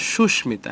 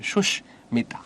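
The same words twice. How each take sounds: First: Said in the usual way. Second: সুস্মিতা split as "sush", pause, "mita"; হসন্তে থেমে উচ্চারণ. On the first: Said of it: "এখানে হসন্ত হবে". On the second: Shown as a demonstration. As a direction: stop briefly after the sh in সুস্মিতা. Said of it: "থামলে হসন্ত". (সুস্মিতা, "সুশ্"-এ থেমে তারপর "মিতা")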